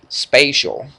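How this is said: The word has an imitated regional West Virginia pronunciation.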